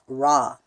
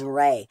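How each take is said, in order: First: The vowel sounds like 'ah'. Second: The vowel sounds like 'ay'. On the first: The speaker calls it wrong. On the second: The speaker calls it right.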